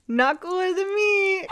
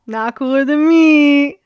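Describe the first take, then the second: First: Pitched way up, half laughing, slow; high squealed repeat. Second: Belted out loud and slow, stretching each word; emphatic denial. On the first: Vlogger repeating her boast in a high giddy squeal. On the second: Vlogger insisting to camera nobody beats her, loud. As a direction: declare it proudly, full voice. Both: Real, not acted.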